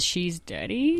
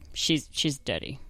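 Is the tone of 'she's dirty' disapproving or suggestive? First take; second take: suggestive; disapproving. First: It is said in a suggestive, flirty tone. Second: It is said in a plain, disapproving tone. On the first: The person is naughty in a sexual way. "Not like a she's dirty" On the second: The person is unclean and needs a wash. "It's all in the tone"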